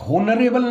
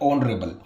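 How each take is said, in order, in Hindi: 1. शब्द की शुरुआत में साफ़ H की आवाज़ सुनाई देती है। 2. शब्द सीधे एक स्वर की आवाज़ से शुरू होता है। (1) "होनरेबल नहीं है गाइज" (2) "इसमें एच साइलेंट रहता है"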